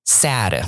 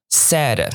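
First: Slow "sad" with a wide "ae" vowel; sad, open A. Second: Slow "sad" said as "said", vowel "eh"; said, short E. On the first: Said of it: "S A D". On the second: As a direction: say "sad" as "sed". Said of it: "说的过去式，S A I D". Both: Shown as a demonstration.

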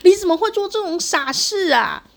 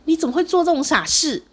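First: Even higher, louder, near a shout; anguished angry mother. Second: Higher, louder cry of anguished anger; grieving angry mother. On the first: Mother at the hospital bed, near-shouting in anguished anger. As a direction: push the scolding to its peak. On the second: Mother at the ER bed, anguished higher, louder scolding. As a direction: scold like a mother in shock and rage. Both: Retold or imitated. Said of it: "很悲愤呢".

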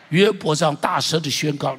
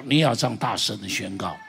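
First: Loud proclamation. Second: Said in the usual way. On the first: Shown as a demonstration.

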